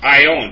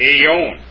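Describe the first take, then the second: First: The opening vowels are said as 'eye'. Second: The opening vowels are not said as 'eye'. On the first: The speaker calls it right. "It's ion. Ion, because it's a diphthong" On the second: The speaker calls it wrong. "I got it wrong"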